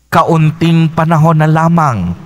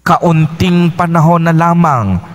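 The two takes are said the same way.

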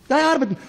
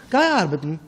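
First: Higher, louder retort. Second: Said in the usual way. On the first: Shown as a demonstration.

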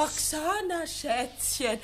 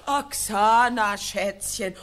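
First: Mocking echo of his pet name; wife mimicking her husband's pet name, mocking; mock imitation. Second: Slow, louder sneering mimicry; wife loudly mimicking her husband's pet name, slow and scornful; loud mocking echo. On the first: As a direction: parrot him sarcastically. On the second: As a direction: drag out his words with scorn. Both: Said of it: "hör doch auf mit dem albernen Schätzchengetue".

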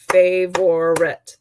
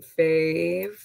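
First: Favorite said slowly and louder, split into three clear beats fa-vo-rite; beating out syllables. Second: Said in the usual way. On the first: Shown as a demonstration. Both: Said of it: "three beats, three syllables".

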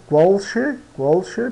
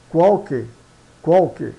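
First: QUALCHE with a SH sound, "kwal-she"; read as spelt. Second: QUALQUE with a hard K, "KWAL-keh"; falling qualque, last syllable "keh"; Italian pronunciation. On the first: Teacher shows learners the written word, CH as SH. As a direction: say che in qualche as "she", rising. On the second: Teacher models Italian qualche, CH as K. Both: Shown as a demonstration.

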